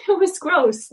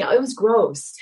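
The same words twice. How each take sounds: First: High, louder laughing repeat of It was gross; amused, laughing It was gross. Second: Said in the usual way. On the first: Real, not acted.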